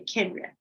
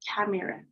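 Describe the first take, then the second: First: The middle vowel is dropped. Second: The middle vowel is clearly pronounced. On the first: The speaker calls it right. "They say camera. The E disappear" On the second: The speaker calls it wrong. "They don't say camera"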